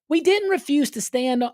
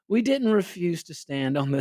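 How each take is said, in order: First: It is said in a mocking put-on voice. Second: It is said in an eloquent, dignified voice.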